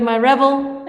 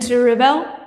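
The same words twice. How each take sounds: First: Rebel as a noun, REB-el; stress on first syllable. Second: Rebel as a verb, ri-BEL; stress on second syllable. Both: Shown as a demonstration. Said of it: "there's a different pronunciation on those".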